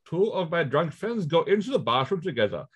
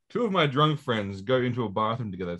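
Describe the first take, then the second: First: It is read in an Indian-sounding accent. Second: It is read in a plain, normal accent. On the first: "I went weirdly Indian there for a second" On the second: "I'll read it in my [name] voice"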